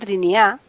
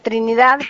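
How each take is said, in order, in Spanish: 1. Los dos sonidos de la d se pierden. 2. Los dos sonidos de la d se pronuncian claramente. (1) "se comen las dos D" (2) "en lugar de"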